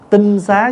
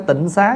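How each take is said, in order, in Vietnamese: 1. Âm tiết đầu có thanh ngang. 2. Âm tiết đầu có thanh thấp và thắt họng. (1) "Chứ đúng đọc là đúng cách đọc là tinh xá" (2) "Bây giờ mình đọc hơi trại là chữ tịnh xá đó"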